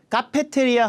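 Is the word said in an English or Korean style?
Korean. It is said with even, Korean-style syllables. Listeners will not understand it. The speaker calls it wrong. "카페테리아 하면 아예 못 알아들어요"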